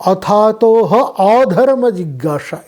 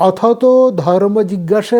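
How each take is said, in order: First: অথাতহ pulled apart from অধর্ম, its final "ho" sounded; split sandhi reading. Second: Said in the usual way. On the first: Shown as a demonstration. Teacher showing the second sutra reading, অথাতহ and অধর্ম pronounced apart. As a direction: sound the opening "a" of অধর্ম separately, after অথাতহ. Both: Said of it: "এই দুটোই কিন্তু রয়েছে".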